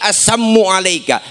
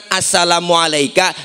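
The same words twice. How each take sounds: First: Assammu alaika with the la dropped, hissed into a curse; mock hostile greeting. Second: Said in the usual way. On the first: Shown as a demonstration. Preacher shows the unbeliever's twisted greeting. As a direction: Assammu alaika said as a sneer, assammu not assalamu. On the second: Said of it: "Kalau kita kan".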